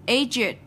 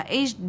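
First: "Aged" said as AY-jid, slowly; aged in two syllables. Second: "aged" as AYJD, with a plain d ending; aged in one syllable. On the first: Teacher teaching the exception to students, "Aged" as two syllables, AY-jid. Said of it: "chúng ta đọc là jed". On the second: Teacher showing what the regular rule would give, "aged" as one syllable ending in d. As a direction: close "aged" straight onto the d, no id syllable. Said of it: "xét theo đúng nguyên tắc thì cái này phải là". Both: Shown as a demonstration.

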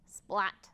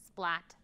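The two takes are said the same way.

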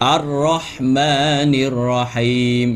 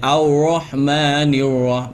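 First: "อัรเราะห์มา" with a rolled r, lips unpursed; correct unrounded R. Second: "อัลเราะห์มานิร" with pursed lips, sounding like "aw-roh"; faulty recitation, first syllable of "อัลเราะห์มานิร" sliding into w; wrongly rounded R. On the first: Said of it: "ไม่ใช่". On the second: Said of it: "พอเราไปห่อปุ๊บเนี่ย". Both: Shown as a demonstration.

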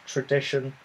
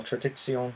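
First: "Tradition" said the English way, tra-DISH-un; plain English "Tradition" with a sh sound; English pronunciation. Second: "Tradition" said the German way, tra-di-tsi-OHN; "Tradition" in German with a ts sound and stress on the last syllable; German pronunciation. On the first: Naming the hops in the beer, "Tradition" said the English way. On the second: Correcting himself on the hop name, "Tradition" said the German way. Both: Shown as a demonstration. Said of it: "or Tradition".

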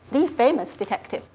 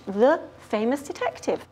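First: "the" said as a stressed THEE; emphasis on "the". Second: Said in the usual way. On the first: Shown as a demonstration. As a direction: stress "the" for the one and only. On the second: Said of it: "And shared knowledge".

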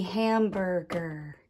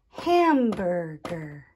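First: Said in the usual way. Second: "Hamburger" slowly in three beats, leaning on "Ham"; tapped syllables. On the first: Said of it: "syllables are when I take a word". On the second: Shown as a demonstration. Teacher introducing the last word, "Hamburger" syllable by syllable. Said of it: "tap out the different sound groups".

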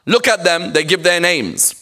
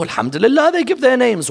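First: Lightly acted reproach; disapproving critic. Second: Lifted, emphatic approval; approving correction. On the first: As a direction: act out a community member tutting at donors. Acting out critics of named donors. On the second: Acted. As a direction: counter the critics by praising the donors.

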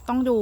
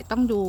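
The two takes are said the same way.

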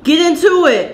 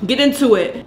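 First: Higher, louder hype; hyped up. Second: Said in the usual way. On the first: Shown as a demonstration. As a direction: pump it up the second time. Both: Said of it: "repeated with emphasis".

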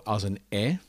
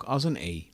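First: "e" said as short open eh; open E sound. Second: "e" said as long closed ay; closed E sound. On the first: Teacher showing how other languages read the sign, open E. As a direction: open the "e" wide, like eh in bed. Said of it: "Het komt vaak voor als een e". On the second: Teacher showing the sign's other reading, closed E. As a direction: make the "e" a long, close ee as in Dutch zee. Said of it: "maar ook als een e". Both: Shown as a demonstration.

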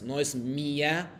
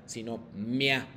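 First: Mia split into two beats, mi then a; separated mi-a. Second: Mia run together as one glide, mya; joined mia. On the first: Teacher showing students the wrong, split mia. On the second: Teacher showing students the right, joined mia. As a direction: blend mia into a single smooth syllable. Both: Shown as a demonstration.

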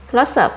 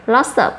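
The two takes are said the same way.

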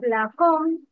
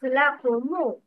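First: لكم closed on the m, lakum; sukun on mim. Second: لكم ending in a u, lakumu; dhamma on mim. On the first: Teacher shows the form to avoid, لكم stopped as lakum. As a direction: end لكم on a bare m, no vowel after. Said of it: "not لكم". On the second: Teacher models the added vowel, لكم said as lakumu. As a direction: add a short u after the m of لكم. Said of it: "Mim dhamma". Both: Shown as a demonstration.

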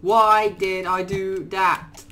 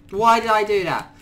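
First: Drawn out, slow self-reproach; slow lament. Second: Said in the usual way. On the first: Real, not acted. Gamer scolding himself, slow drawn-out lament. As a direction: stretch the question out in regret.

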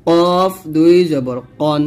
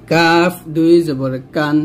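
First: Heavy rounded q in কন; slow heavy Arabic q; thick qaf. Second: Light open k in কান; slow light Arabic k; thin kaf. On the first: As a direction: say কফ and কন thick, from the back, slowly. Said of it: "এই কফটা কিন্তু মোটা করে". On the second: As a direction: say কাফ and কান thin, slowly. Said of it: "কাফটা কিন্তু পাতলা করে". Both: Shown as a demonstration.

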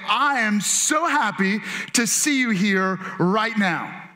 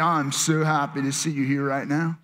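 First: Slow, deliberate, friendly greeting; glad greeting. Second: Put-on low, droning, unenthusiastic kid; reluctant kid. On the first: Shown as a demonstration. Pastor showing congregation what to say to a neighbor, glad greeting. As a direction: say it slowly like you mean it. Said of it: "lean over and say". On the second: Kid forced to greet someone in church, reluctant drone. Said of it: "you're one of those kids".

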